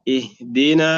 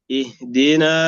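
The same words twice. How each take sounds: The two takes are said the same way.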